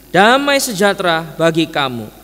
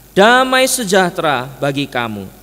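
No difference in how they are said.

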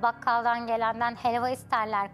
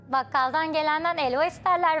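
First: It is said in standard Turkish pronunciation. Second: It is said in Thrace dialect without the h.

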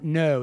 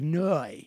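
First: It is said in a plain, neutral accent. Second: It is said in an exaggerated Australian accent. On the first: "not no" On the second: "the way they say no, ... it's like no"

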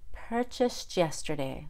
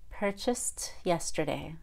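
First: The T and Y blend into a CH sound. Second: The T is released with a puff of air. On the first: "First, I'll do the CH" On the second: "and then the aspirated T"

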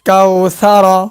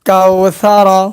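The two takes are said the same way.

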